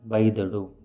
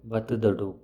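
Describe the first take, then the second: First: The word is said in a contracted form. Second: The word is said in its full form. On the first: This is how it is said in everyday speech. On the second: This is the form built from its parts.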